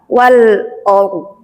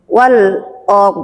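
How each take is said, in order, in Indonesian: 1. Vokal itu diucapkan sebagai O gelap. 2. Vokal itu diucapkan sebagai O gelap.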